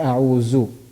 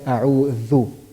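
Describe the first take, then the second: First: The last syllable starts with a 'z' sound. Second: The last syllable starts with a 'th' sound. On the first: The speaker calls it wrong. "I can't say a'uzu" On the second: The speaker calls it right. "I have to say a'udhu"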